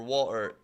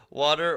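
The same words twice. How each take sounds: First: "water" with the T gone; T dropped. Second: Said in the usual way. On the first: Shown as a demonstration. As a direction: say "water" with a glottal catch for the T. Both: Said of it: "when the T is gone".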